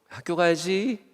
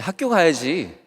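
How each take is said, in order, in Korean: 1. 부드럽고 다정한 목소리로 말합니다. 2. 더 날카롭고 꾸짖는 목소리로 말합니다. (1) "처음에는 좋은 소리로 깨우죠" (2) "조금 민기적거리고 있으면 야"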